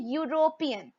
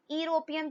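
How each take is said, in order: First: यूरोपियन said as "yoo-ropian", with a clear Y glide at the start; teacher models the right way to say यूरोपियन; correct pronunciation. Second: यूरोपियन said as "ee-ropian", no Y sound at the start; wrong pronunciation. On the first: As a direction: begin यूरोपियन with a "y" sound, like "you". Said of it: "हम बोलते हैं यूरोपियन". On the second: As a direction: start यूरोपियन on a plain "ee" vowel. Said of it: "यूरोपियन तो हम बोलते नहीं". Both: Shown as a demonstration.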